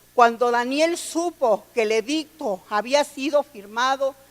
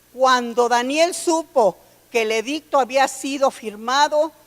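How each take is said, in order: The two takes are said the same way.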